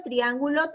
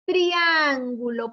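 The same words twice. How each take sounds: First: Said in the usual way. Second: Slow, stretched TRIÁNGULO with a long stressed A; drawn-out model word. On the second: Shown as a demonstration. Teacher modelling a word with tri for pupils, slowly drawn out. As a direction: sound out "Triángulo" slowly and firmly.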